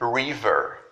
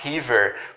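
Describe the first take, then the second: First: The first sound is an English r sound. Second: The first sound is a breathy h-like sound. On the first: The speaker calls it right. "Quando a palavra em inglês começar com R, esse vai ser o som" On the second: The speaker calls it wrong. "esse som aqui seria muito parecido com o som que eu tenho aqui em cima"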